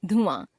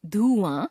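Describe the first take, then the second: First: Said in the usual way. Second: धुआं with long "dhoo"; mispronounced first vowel. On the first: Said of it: "शुद्ध". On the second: Shown as a demonstration. Teacher showing a common error, धुआं with long u. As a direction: stretch धुआं to "dhoo-aan". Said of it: "अशुद्ध".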